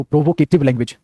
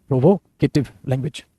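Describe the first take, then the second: First: Said in the usual way. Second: provocative language said slowly, each syllable spaced out; slow it down so students can write provocative language; slow dictation. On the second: Shown as a demonstration. Teacher repeating the term slowly for the class to copy it down.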